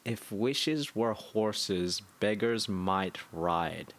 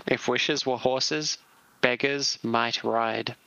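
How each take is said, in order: First: Slow, softer, savouring the Russian accent quote's words; slow musing echo. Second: Mock Russian accent. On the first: Real, not acted. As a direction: repeat it slowly, pondering it. Repeating the quote slowly, musing. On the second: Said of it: "with an insulting Russian accent instead".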